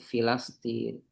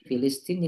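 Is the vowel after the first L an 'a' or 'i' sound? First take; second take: a; i. First: The vowel after the first L is 'a'. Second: The vowel after the first L is 'i'. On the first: The speaker calls it wrong. "Kadang orang bacanya Filastin" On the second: The speaker calls it right. "harusnya Filistin"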